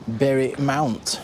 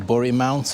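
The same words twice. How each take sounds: First: Bury is said in the standard way. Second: Bury is said in the local way.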